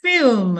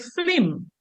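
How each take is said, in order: First: It is said with standard English pronunciation. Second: It is said with Dominican Creole pronunciation. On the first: "In the standard, we say film" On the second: "in the Creole English, we say flim"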